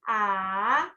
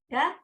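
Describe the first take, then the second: First: The pitch dips down and comes back up. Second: The pitch stays high and level. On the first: "nada ketiga" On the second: "nada ke satu, gimana tadi? Da, datar"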